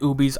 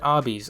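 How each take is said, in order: First: The first vowel is long, as in 'boot'. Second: The first vowel is short, as in 'hot'. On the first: The speaker calls it wrong. "if you pronounce it oobies, I will murder you" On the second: The speaker calls it right. "I said obbies"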